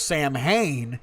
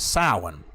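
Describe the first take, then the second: First: It is said like 'Sam' plus 'hain'. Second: It is said like 'sow-in', without 'Sam'. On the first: The speaker calls it wrong. "where we thought we were pronouncing the word properly throughout the years" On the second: The speaker calls it right. "but it's actually pronounced as Samhain"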